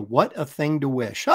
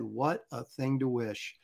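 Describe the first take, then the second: First: Chuckling through the line, a bit slow; amused repeat. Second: Slow, low and soft solemn reply; grave stage line. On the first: Acted. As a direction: savour the line with a laugh. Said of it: "repeats the line, laughing". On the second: Retold or imitated. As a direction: deliver it like a grave dad in a play. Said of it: "And then I said".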